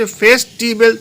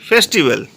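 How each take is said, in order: First: "festival" spaced out as fes, ti, bel; split into syllables. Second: Said in the usual way. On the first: Shown as a demonstration. Teacher counting three syllables, "festival" said part by part. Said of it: "তিনটে syllable আছে". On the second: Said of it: "festival তিনটে syllable আছে".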